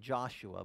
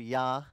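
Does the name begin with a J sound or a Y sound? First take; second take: J sound; Y sound. First: The name begins with a J sound. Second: The name begins with a Y sound. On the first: This is how English speakers say the name. "We pronounce it Joshua" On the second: This is how the name is said in Hebrew. "but it's really in Hebrew, Yahshua"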